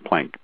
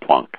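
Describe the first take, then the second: First: The name is said with an English-style pronunciation. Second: The name is said with its original German pronunciation.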